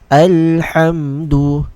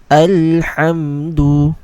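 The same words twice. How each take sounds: The two takes are said the same way.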